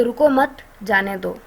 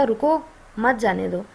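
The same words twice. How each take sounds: First: रुको मत as one phrase, pause, then जाने दो; slow, with the break after मत, before जाने दो. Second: रुको on its own, pause, then मत जाने दो as one phrase; slow, with a break right after रुको. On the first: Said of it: "second वाले में बन गया कि". ("रुको मत" साथ में, ठहरकर "जाने दो") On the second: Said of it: "first में बन रहा था". ("रुको" पर ठहरकर "मत जाने दो" साथ में) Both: Shown as a demonstration.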